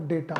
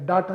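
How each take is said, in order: First: The first vowel sounds like 'ay' in day. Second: The first vowel sounds like 'ah' in father. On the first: The speaker calls it right. "डेटा होता है" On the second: The speaker calls it wrong. "डाटा नहीं होता"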